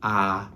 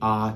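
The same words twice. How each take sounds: First: The vowel is brighter, further forward in the mouth. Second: The vowel is darker, further back in the mouth.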